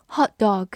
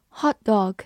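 No difference in how they are said.

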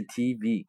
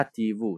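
First: T V said the English way, tee-vee; wrong pronunciation. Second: T V said the Italian way, tee-voo; Italian pronunciation. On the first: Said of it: "它不是T V". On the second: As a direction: say T V as the Italian letters ti vu. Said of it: "是T V". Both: Shown as a demonstration.

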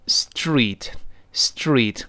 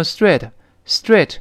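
First: STREET with a drawn-out ee; slow, stretched street; long ee. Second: Street mispronounced with short "eh", like "stret"; wrong short-vowel street; learners' mistake. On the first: Teacher modelling the long vowel, long-ee street. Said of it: "也是发长音". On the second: Teacher imitating many students, street as stret. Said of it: "但很多同学就读成". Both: Shown as a demonstration.

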